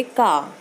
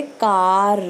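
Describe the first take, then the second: First: "का" with the final र left silent; English pronunciation. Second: "कार" drawn out, ending on a strong, separate र; Punjabi pronunciation. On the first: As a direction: end "का" on the open vowel, no r sound. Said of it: "पर English में जब हम बोलना हो". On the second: Teacher contrasts Punjabi with English, "कार" with heavy final र. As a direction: hit the final र in "कार" hard, Punjabi style. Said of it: "Punjabi में बोलेंगे". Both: Shown as a demonstration.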